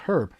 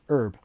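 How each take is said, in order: First: The word begins with an audible h sound. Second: The word begins with a vowel, no h. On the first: The speaker calls it right. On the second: The speaker calls it wrong.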